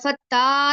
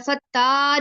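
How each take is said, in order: First: The vowel after the double t is long. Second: The vowel after the double t is long.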